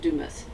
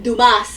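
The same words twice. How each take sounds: First: The name is pronounced the English way. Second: The name is pronounced the French way. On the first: "I think in English it's Dumas" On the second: "it's called in, in French"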